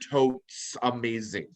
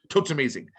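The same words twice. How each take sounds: First: The phrase is said slowly. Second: The phrase is said quickly. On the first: "I'm like trying to say it slow" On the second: "I say it fast"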